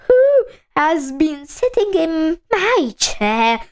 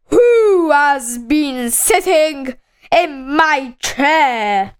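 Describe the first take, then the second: First: Medium-sized bear voice, only lightly put on; Mother Bear. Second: Slow, big booming bear question; very loud Father Bear. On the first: Mother Bear asks who sat in her chair, medium-sized voice. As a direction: ask it at a moderate volume, lightly in character. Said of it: "asked in a medium-sized voice". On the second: Father Bear asks who sat in his chair, very loud voice. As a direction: stretch the words out, big and loud. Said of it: "in a very loud voice". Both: A narrator's reading.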